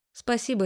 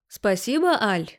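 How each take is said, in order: First: Said in the usual way. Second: Horrified disbelief. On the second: A narrator's reading. Husband appalled that his wife thanks Lena, incredulous rise. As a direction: repeat the word as if you can't believe it. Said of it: "ужаснулся Витя".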